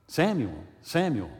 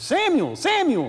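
First: Gentler call, only slightly raised; restrained calling. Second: Very high, loud summons; calling out. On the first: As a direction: call the name with mild force, near speaking pitch. Last, more restrained call to Samuel. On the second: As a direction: call the name out high and loud, letting it fall. The voice calls Samuel a second time. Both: Acted.

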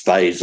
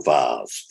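First: Vase rhyming with days; vase with a long AY vowel; first pronunciation variant. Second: Vase rhyming with cars, no R; vase with a long AH vowel; second pronunciation variant. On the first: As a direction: say vase as "vayz". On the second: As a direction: say vase as "vahz". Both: Shown as a demonstration. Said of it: "whichever you prefer".

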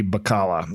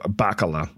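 First: Bacala said buh-KAH-luh; Bacala, second-syllable stress. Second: Bacala said BACK-uh-luh; Bacala, first-syllable stress. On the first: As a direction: stress the middle of Bacala, with an open ah. Trying two pronunciations of surname. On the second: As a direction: hit the front of Bacala, with a short a. Retries the surname differently. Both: Real, not acted.

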